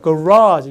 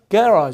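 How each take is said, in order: First: The stress is on the last syllable. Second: The stress is on the first syllable. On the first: This is the American pronunciation. "이렇게 뒤로 갔다가" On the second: This is the British pronunciation. "이렇게 앞으로 가니까"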